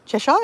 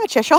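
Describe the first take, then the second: First: "Cheshire?" asked with a rising giggle; giggly Cheshire. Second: Said in the usual way. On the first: Real, not acted. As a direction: lift "Cheshire?" into an amused question. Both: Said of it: "laughing when I say Cheshire".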